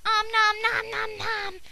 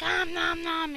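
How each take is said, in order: First: Slow, higher cartoon chomping voice; hungry munching. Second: Said in the usual way. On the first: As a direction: chomp like a greedy cartoon monster. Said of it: "Rye's like". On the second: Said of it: "she's like".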